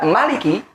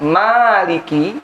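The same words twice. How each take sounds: First: The first vowel is said short. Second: The first vowel is held long. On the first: "tidak pendek" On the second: "Kalau dibaca panjang"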